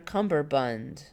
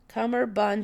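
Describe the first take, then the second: First: The middle has an M followed by B. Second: The middle has an M sound without B. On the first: "It was always Cumberbund" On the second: "It doesn't have a B in it anymore"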